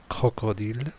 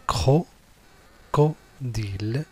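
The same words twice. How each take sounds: First: Said in the usual way. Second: Crocodile slowly broken into cro, co, dile; syllable by syllable. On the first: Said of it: "on va mettre ici co". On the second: Shown as a demonstration. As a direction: say cro-, co-dile with clear gaps between syllables. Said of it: "les mots avec les syllabes".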